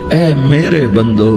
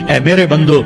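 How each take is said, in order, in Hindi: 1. यह कोमल, प्यार भरे लहजे में कहा गया है। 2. यह सादे, बिना प्यार के लहजे में कहा गया है।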